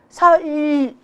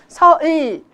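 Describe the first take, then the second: First: The final l is made further forward. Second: The final l is made further forward.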